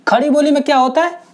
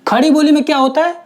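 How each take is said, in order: No difference in how they are said.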